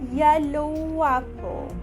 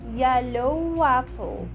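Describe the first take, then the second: First: The words are joined with a W sound. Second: The same.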